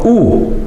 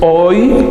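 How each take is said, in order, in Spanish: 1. Se dice como una sola vocal, u. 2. Se dice como diptongo, oi. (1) "sino u" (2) "No es hoy"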